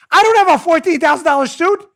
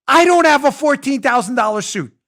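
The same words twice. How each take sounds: First: DON'T hit loud, higher, rising; louder indignant denial, weight on don't; stress on DON'T. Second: I punched loud and high; emphatic denial, weight on I; stress on I. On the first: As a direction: push the word don't hard and loud. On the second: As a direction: lean hard on I, loud and firm. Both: Real, not acted. Denying owning a costly suit.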